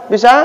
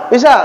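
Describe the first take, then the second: No difference in how they are said.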